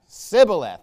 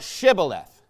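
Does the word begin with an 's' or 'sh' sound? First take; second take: s; sh. First: The word begins with an 's' sound. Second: The word begins with a 'sh' sound. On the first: The speaker calls it wrong. "this is how the Ephraimites had pronounced this word, because they couldn't say it right" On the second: The speaker calls it right. "Say now Shibboleth"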